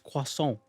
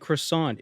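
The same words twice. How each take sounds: First: It is said with a French pronunciation. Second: It is said with an American English pronunciation. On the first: The speaker calls it right. "it's croissant" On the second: The speaker calls it wrong. "Americans shouldn't say croissant"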